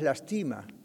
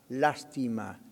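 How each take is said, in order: First: The stress is on the second syllable. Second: The stress is on the first syllable.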